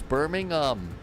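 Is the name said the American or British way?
British. The name is said the British way. The town in the UK is meant. The speaker calls it right. "It's Birmingham"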